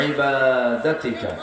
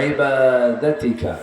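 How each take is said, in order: Both takes have the same delivery.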